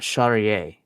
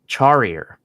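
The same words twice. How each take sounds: First: The name is said with a French pronunciation. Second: The name is said with a non-French pronunciation. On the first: The name is French, so it should sound this way. The speaker calls it right. "but this guy's French. How is it not Charrier?" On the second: Someone else said it this way. The speaker calls it wrong. "Charrier is what Anik was saying"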